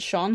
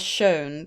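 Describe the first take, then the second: First: The vowel rhymes with 'on'. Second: The vowel rhymes with 'own'. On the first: "for me, it's always been Sean" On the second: "Does anyone actually pronounce that as shown?"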